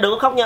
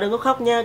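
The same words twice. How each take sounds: First: It is said in an ordinary speaking voice. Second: It is said in a soft, gentle voice.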